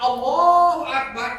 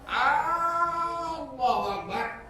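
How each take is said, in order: First: The first vowel of Allahu is short. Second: The first vowel of Allahu is drawn out long. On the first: It states that God is the greatest. The speaker calls it right. "Allah Magedan" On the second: It asks whether God is the greatest. The speaker calls it wrong. "apakah Allah itu Maha Besar?"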